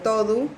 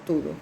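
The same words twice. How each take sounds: First: "todo" said TO-du, with o in first syllable; Portuguese todo. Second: "todo" said TU-du, with u in first syllable; Portuguese tudo. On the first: Teacher contrasting Portuguese forms for students, "todo" pronounced TO-du. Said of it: "Pero es el único caso". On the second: Teacher giving the invariable form, "todo" pronounced TU-du. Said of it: "Si no, si no hay sustantivo". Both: Shown as a demonstration.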